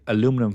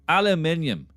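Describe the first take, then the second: First: The word is said with an American pronunciation. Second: The word is said with a British pronunciation. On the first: The speaker calls it wrong. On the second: The speaker calls it right.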